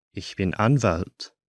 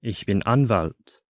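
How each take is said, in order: Both takes have the same delivery.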